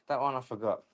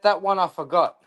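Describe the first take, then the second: First: Softer repeat. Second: Said in the usual way. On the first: Real, not acted. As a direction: repeat it much softer and lower, almost to himself. Repeats the line, second take softer.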